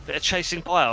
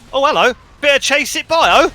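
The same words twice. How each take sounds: First: Said in the usual way. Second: Excited commentary. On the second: Real, not acted. Live commentary, sudden action.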